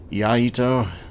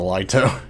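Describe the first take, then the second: First: The name begins with a Y sound. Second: The name begins with an L sound. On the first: The speaker calls it right. "I think is the proper way to pronounce it" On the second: The speaker calls it wrong. "most people just call it the Lito, even though I don't think that's an L"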